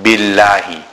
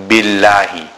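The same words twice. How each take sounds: First: The L sound is light and empty-mouthed. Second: The same.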